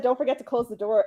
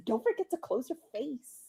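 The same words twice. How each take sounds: First: Said in the usual way. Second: Softly delivered deadpan comeback; imitating own quiet wisecrack; deadpan joke. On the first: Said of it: "someone said". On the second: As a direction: say it soft, as a throwaway joke. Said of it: "I said it just like this".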